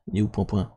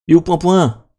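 First: Soft, offhand question to self; muttered searching. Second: Louder, higher repeated question; raised-voice, exasperated search; impatient calling out. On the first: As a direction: mumble it while hunting for something. Muttering while searching for folder. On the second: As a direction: call out for the thing that's missing. Repeats it louder, cannot find it. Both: Real, not acted.

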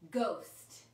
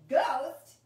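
First: Said in the usual way. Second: "Ghost" shouted out much louder; loud excited repeat. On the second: Shown as a demonstration. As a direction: call "Ghost" back at full volume, eager. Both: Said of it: "And you're gonna say".

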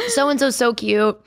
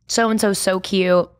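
First: Slow, gushing with ice in mouth. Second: Talking around an ice cube; words round a mouthful of ice. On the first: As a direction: gush around the ice cube. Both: Real, not acted. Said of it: "I have an ice cube in my mouth".

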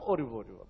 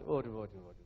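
First: Low, weary ori repeated; exasperated groan. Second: Exasperated groan. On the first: Preacher groaning again at ancestors being blamed, exasperated. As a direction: groan at the endless blaming. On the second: Preacher groaning at the couple's blame game, exasperated. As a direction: sigh it out like a fed-up elder. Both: Acted.

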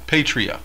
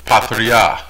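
First: "patria" said as PAY-tree-uh; a first guess at "patria", opening with a long "pay"; anglicised "patria", PAY-tree-uh; unsure pronunciation. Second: "Patria" said as pah-tree-AH; careful, lower "Patria", pah at the start and ah at the end; correct pronunciation. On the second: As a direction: echo the reference "Patria" with open ah vowels. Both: Shown as a demonstration. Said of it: "correct pronunciation".

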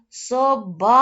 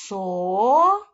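First: СОБАЧКА called out loud, БА stretched long; calling out. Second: СОБАЧКА split into со, бач, ка with long pauses; slow teacher's syllable split of СОБАЧКА. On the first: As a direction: holler СОБАЧКА, holding the stressed БА. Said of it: "Давайте перевіримо". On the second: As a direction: sound out СОБАЧКА in drawn-out separate pieces. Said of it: "Поділяємо". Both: Shown as a demonstration.

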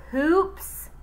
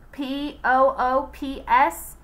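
First: Higher, louder startled question; puzzled question. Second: Each letter of P O O P S said separately and slow; spelled out. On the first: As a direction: Eric Ovens hearing the odd name, surprised. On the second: Eric Ovens spelling the name back, slow letters. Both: Acted. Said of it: "asked Eric Ovens".

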